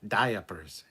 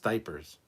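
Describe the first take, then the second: First: Every letter is sounded, giving three syllables. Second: The middle vowel is dropped, giving two syllables. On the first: The speaker calls it wrong. "pronounce every fucking letter in it" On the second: The speaker calls it right. "It's diapers"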